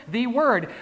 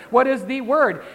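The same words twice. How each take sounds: First: Singular Word, stressed hard on Word. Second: Word stressed again in the question. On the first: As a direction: hit Word as one word. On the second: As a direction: ask it, leaning on Word. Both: Shown as a demonstration. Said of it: "How many words?".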